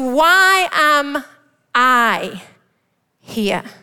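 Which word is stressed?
I. The stress falls on "I".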